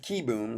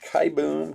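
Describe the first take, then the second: First: The first syllable sounds like 'key'. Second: The first syllable sounds like 'kai'. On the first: The speaker calls it right. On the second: The speaker calls it wrong. "I always called him Kai Boom"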